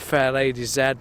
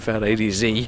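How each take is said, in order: First: The final letter has a non-American pronunciation. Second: The final letter has the American pronunciation.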